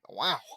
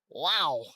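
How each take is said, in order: First: It is said in a put-on character voice. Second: It is said in his own natural voice.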